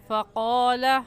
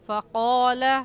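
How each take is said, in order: First: The q sound is heavy, with rounded lips. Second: The same.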